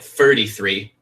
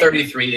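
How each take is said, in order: First: The th sounds are said like f. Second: The th sounds are said in a plain way. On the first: "it'd be like thirty-three, but you'd say it differently" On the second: "instead of"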